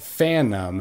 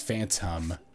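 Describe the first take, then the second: First: The T sound in the middle is dropped. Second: The T sound in the middle is clearly pronounced. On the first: The speaker calls it wrong. "that's not Phantom" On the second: The speaker calls it right. "it's Phantom"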